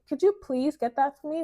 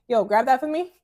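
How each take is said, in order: First: Higher, sweet, courteous ask; polite request. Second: Louder, higher blunt order; impolite slangy demand. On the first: Woman asking someone to fetch something, sweetly polite. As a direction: ask nicely, lilting on please. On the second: Woman telling someone to grab something, loud and impolite. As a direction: bark it casually, no manners. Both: Shown as a demonstration. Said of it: "learn to use polite language".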